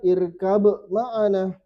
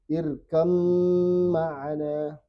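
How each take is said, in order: First: A b sound is pronounced before the m. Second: The b merges into a doubled m sound. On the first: The speaker calls it wrong. "Baknya tidak dibaca" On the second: The speaker calls it right. "Tapi langsung ke mim"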